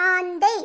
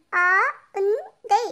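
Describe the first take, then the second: First: Said in the usual way. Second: ஆந்தை sounded out very slowly in separate pieces; letter by letter. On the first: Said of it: "உச்சரித்து வாசிங்க". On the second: Shown as a demonstration. Pupil reads aloud for the teacher, ஆந்தை letter by letter. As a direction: break ஆந்தை up, a pause after each letter. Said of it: "ஒவ்வொரு எழுத்தா உச்சரித்து வாசிங்க".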